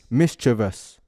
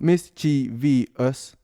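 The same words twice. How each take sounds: First: The word is said with three syllables. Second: The word is said with four syllables.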